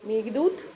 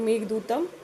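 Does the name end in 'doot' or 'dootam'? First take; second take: doot; dootam. First: The name ends on the syllable 'doot'. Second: The name ends with an added 'am' syllable.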